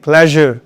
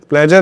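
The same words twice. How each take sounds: First: The middle consonant is a soft zh sound. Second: The middle consonant is a hard j sound. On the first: The speaker calls it right. "ज sound" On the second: The speaker calls it wrong. "प्लेजर नहीं"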